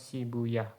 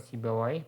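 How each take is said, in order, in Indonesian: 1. Nama itu berakhir dengan bunyi 'uyah'. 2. Nama itu berakhir dengan bunyi 'awaih'.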